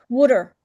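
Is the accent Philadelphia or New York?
Philadelphia. It is said in a Philadelphia accent.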